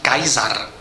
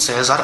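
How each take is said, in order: First: The name starts with a K sound. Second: The name starts with a TS sound. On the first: This is the original ancient pronunciation. "původní výslovnost jeho jména má být Kaisar" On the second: This pronunciation comes from medieval Latin. "Výslovnost César pochází až ze středověké latiny"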